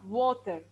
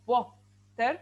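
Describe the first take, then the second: First: Said in the usual way. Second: WATER broken into wa and ter; water sounded out syllable by syllable; syllable split. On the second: Shown as a demonstration. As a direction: say water as two separate beats, wa, ter. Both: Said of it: "So I have two syllables".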